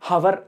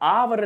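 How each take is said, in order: First: The word starts with an audible h sound. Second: The word starts with a vowel, no h. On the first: The speaker calls it wrong. "హవర్ అని హా పలకట్లేదు" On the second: The speaker calls it right. "అవర్ అవర్ అంటున్నాం అక్కడ"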